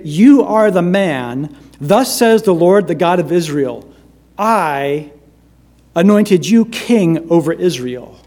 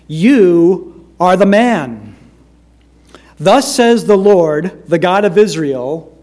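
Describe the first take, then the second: First: I set apart after a pause, then anointed you lifted; stress on I. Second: You are the man, slow and loud, each word weighed; solemn, drawn-out proclamation of the verdict; emphatic reading. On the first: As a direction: pause before I and give it weight. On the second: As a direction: lean hard on You are the man, Thus says the Lord. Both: Shown as a demonstration. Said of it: "I'm going to emphasize certain words".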